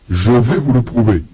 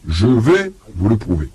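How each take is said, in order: Both takes have the same delivery.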